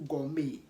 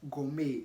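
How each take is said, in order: Both takes have the same delivery.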